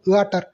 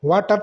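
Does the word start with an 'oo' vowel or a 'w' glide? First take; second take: oo vowel; w glide. First: The word starts with a separate 'oo' vowel. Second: The word starts with a quick 'w' glide. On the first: The speaker calls it wrong. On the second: The speaker calls it right.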